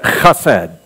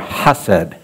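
First: The first sound is a harsh throaty ch. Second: The first sound is a soft breathy h. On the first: "really you're supposed to pronounce it chesed" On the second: "would soften the ha part so it would be more hased"

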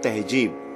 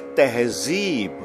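First: The middle consonant is a 'j' sound. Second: The middle consonant is a 'z' sound. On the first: The speaker calls it wrong. "Not tehjeeb" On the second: The speaker calls it right. "We say tehzeeb"

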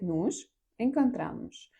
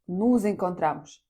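First: The words are split by a pause, unlinked. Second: The words run together with sounds linked. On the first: "ви можете просто зробити паузу" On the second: "Якщо ви швидко кажете фразу, то вам потрібно злити це"

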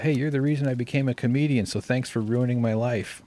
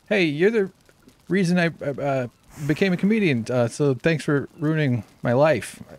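First: It is said smoothly without hesitations. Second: It is said haltingly with hesitations.

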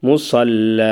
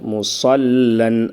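First: The word ends on an open long vowel. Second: The word ends with an n sound. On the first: The reader stops on this word. "ஆனால் எப்படி நிப்பாட்டுவோம்?" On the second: The word is read in running speech. "முசல்லன் அப்படின்ட்டு இருக்குது"

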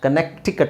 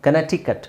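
No difference in how they are said.

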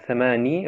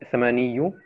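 First: The word ends with a short 'i' sound. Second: The word ends with an added '-iyu' syllable. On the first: The speaker calls it right. "sondern Thamani, weil das Sukun ist" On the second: The speaker calls it wrong. "nicht Thamaniyu"

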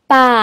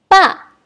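First: It is said with the third tone. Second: It is said with the fourth tone. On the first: "Nada ketiga" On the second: "Dan nada keempat"

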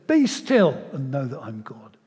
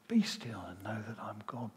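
First: It is said loudly, like a command. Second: It is said quietly and gently.

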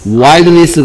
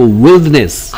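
First: The first vowel sounds like 'eye'. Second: The first vowel sounds like 'ih'. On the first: The speaker calls it wrong. "Wilderness 가 아니고" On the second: The speaker calls it right. "여기 I의 발음은? E"

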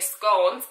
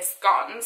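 First: Scones is said the English way. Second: Scones is said the Scottish way.

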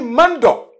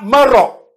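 First: The word is said with a nasal sound. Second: The word is said without a nasal sound. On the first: The speaker calls it right. "on dit mando" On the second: The speaker calls it wrong. "On ne dit pas maro"

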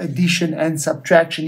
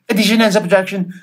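First: The phrase is said at an ordinary speed. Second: The phrase is rattled off very quickly. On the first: "as a normal people, a normal person would say that" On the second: "how fast can I say that?"

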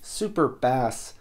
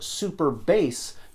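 First: Bass rhymes with mass, like the fish. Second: Bass rhymes with face, like the musical term. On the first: "just sounds less cool" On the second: "In defense of the musical pronunciation"

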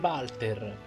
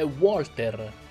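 First: The name begins with a v sound. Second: The name begins with a w sound. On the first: The speaker calls it wrong. "io da piccolo lo chiamavo sempre Walter" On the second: The speaker calls it right. "ha una doppia V e non una V nel nome e quindi è Walter"

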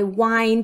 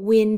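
First: The vowel is a long 'eye' sound. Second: The vowel is a short 'ih' sound. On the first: It means turning something, like a clock. The speaker calls it right. "I wind a clock" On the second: It means moving air. The speaker calls it wrong. "I don't wind a clock"

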